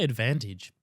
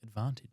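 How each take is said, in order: First: It is said without the South Australian vowel. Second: It is said with a South Australian vowel. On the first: "It's funny you say advantage" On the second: "South Australians normally say advantage"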